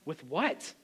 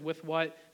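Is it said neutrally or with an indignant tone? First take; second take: indignant; neutrally. First: It is said with an indignant little tone. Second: It is said plainly, without attitude.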